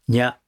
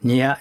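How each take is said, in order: First: It is squeezed into one single sound. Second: It is split into two separate sounds. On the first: The speaker calls it right. "一発の音に潰すように" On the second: The speaker calls it wrong. "うっかりするとにゃ、にゅ、にょになっちゃうんですけれども"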